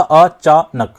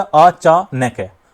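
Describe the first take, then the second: First: "अचानक" in three loud beats, अ, चा, नक; correctly split. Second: "अचानक" very slowly as अ-चा-नै-कै; four drawn beats on "अचानक", नक broken in two; over-split word. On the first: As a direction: split "अचानक" but keep नक as one closed syllable. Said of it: "अचानक को यहाँ पर तोड़ा". ("अचानक" को अ-चा-नक, नक जोड़कर बोलें) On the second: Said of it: "यहाँ पर क्या हो गया". ("अचानक" को अ... चा... नै-कै बोलें) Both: Shown as a demonstration.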